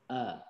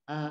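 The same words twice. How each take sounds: First: The vowel starts deep in the lower throat. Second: The vowel is formed forward in the mouth. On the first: "ketika mengucapkan hamzah, misalkan a" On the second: "bunyi a, yang a-nya dialeknya kita"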